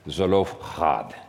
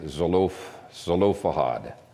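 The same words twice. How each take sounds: First: It is said with a harsh throaty sound. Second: It is said smoothly without a throaty sound. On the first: "the Hebrew is Zelophehad, with a lot of phlegm in it" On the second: "it's closer to the Hebrew to say Zelophehad"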